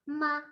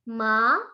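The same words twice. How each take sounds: First: It is said with the neutral tone. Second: It is said with the second tone. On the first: "dan nada kelima, ma, biasa" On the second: "untuk nada kedua"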